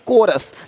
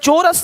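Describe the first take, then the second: First: The word begins with a 'k' sound. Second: The word begins with a 'ch' sound. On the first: The speaker calls it right. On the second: The speaker calls it wrong. "चोरस नहीं"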